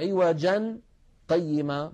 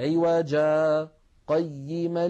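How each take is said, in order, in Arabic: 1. تتصل الكلمتان ببعض مع نطق التنوين. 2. مدّ حرف العلة، ثم سكتة خفيفة صامتة. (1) "فلا نقول عوجا قيما" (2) "بل نقول عوجا قيما لينذر"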